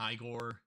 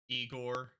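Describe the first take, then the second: First: The name is said the character's way. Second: The name is said the usual way.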